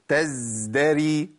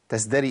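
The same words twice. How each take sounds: First: The z sound is held too long. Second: The z sound is abruptly cut off. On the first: "زودت الزمن" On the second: "أقطع الصوت"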